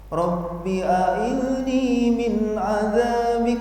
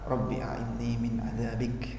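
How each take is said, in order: First: It is said loudly, running on from the verse. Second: It is said softly, set apart from the verse. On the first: It sounds like part of the recited chapter. The speaker calls it wrong. "bukan dibaca keras. Jadi bukan begini" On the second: It is a personal prayer, separate from the chapter. The speaker calls it right. "doanya lirih-lirih ya"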